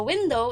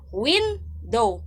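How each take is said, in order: First: Said in the usual way. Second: "window" split as WIN, dow, falling at the end; accented syllable stress. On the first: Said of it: "dili lang siya normal nga window". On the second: Shown as a demonstration. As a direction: hit WIN in "window", pause before dow. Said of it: "Dapat naa siya accent".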